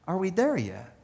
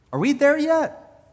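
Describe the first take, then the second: First: Softer, earnest prayerful question; sincere prayer. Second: Put-on childlike plea to God. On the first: Retold or imitated. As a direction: ask quietly and honestly in prayer. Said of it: "I know, Lord". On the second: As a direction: ask God like a bored kid in the car.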